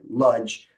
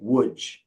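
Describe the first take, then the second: First: The name begins with an L sound. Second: The name begins with a W sound. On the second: This is how Polish speakers say it. "Poles will say Łódź like that"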